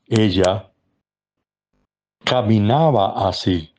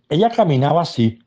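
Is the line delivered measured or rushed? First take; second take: measured; rushed. First: It is said slowly, with rhythm and pauses. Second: It is said quickly, without rhythm or pauses. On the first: The speaker calls it right. "tienes que darle el ritmo, el espacio" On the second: The speaker calls it wrong. "tú no puedes decir"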